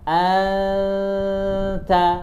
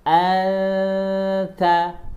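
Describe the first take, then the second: No difference in how they are said.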